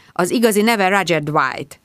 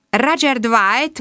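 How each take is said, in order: First: Said in the usual way. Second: "Roger Dwight?" higher, slow and questioning; "Roger Dwight?" echoed slowly with a rising doubt; surprised repeat. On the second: Acted. Inspector echoing "Roger Dwight?" slowly, rising.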